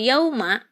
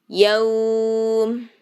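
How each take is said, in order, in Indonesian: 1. Kata ini berakhir dengan vokal pendek setelah m. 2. Kata ini berhenti pada konsonan m di akhir. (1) "ini adalah yaunya sifat lain" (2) "kalau disukunkan, diwakofkan"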